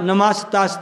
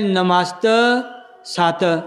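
First: The word is said run together as one. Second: The word breaks into two parts after 'namast'. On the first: The speaker calls it right. "ਪਾਠ ਇਕੱਠਾ ਹੀ ਹੈ" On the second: The speaker calls it wrong. "ਇਹ ਉਚਾਰਨ ਪ੍ਰੋਨਾਉਂਸੀਏਸ਼ਨ ਗਲਤ ਹੈ"

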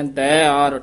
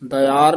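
First: The first vowel is long and kept separate. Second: The first vowel is short and runs into the next. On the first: The speaker calls it right. "ਦੱਦੇ ਦੇ ਦਲਾਵਾਂ ਲਾ ਕੇ ਦੀਰਘ ਬੋਲਣਾ" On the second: The speaker calls it wrong. "ਦਯਾਰ ਨਹੀਂ ਬੋਲਣਾ"

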